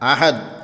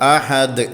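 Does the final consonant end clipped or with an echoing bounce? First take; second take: clipped; echoing. First: The final consonant stops abruptly without echo. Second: The final consonant ends with an echoing bounce. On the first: The speaker calls it wrong. "അങ്ങനെ നിർത്താൻ പാടില്ല" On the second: The speaker calls it right. "അങ്ങനെ തന്നെ കേൾക്കണം"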